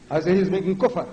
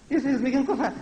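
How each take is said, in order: First: Said in the usual way. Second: High, lightweight parody; mocking meek voice. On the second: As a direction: mimic a timid preacher, pitched up. Mimics a meek way of saying it.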